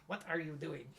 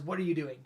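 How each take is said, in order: First: Lightly attempted French accent, softer; a hint of cartoon French accent, said quietly. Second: Said in the usual way. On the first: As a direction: have a tentative go at a French accent. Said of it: "in their French accent". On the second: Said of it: "Or, you know, in their French accent".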